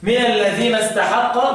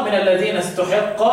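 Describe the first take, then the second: First: "استحق" as istahaqqa, a-vowels; fatha reading. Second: "استحق" as ustuhiqqa, u then i; damma reading. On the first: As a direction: recite "استحق" with open a on ta and ha. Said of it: "وضم استحق افتح لحفص". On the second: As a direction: recite "استحق" with u on ta and i on ha. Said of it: "وضم استحق". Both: Shown as a demonstration.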